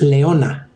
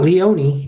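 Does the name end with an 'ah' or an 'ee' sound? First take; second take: ah; ee. First: The name ends with an 'ah' sound. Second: The name ends with an 'ee' sound. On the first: The speaker calls it right. "it's Leona. ... it's like female lion" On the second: The speaker calls it wrong. "It's not Leonie"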